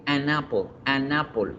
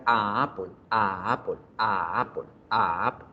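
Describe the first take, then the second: First: "an apple" con la ene pegada a la vocal; enlace fluido. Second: "a Apple" con un pequeño corte entre las dos vocales; entrecortado, sin enlace. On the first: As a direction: liga "an apple" como una sola palabra. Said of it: "Yo pego la, la consonante con la siguiente vocal". (enlazado con fluidez) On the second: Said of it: "se siente la pequeña obstrucción que hago". (entrecortado, con hiato forzado) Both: Shown as a demonstration.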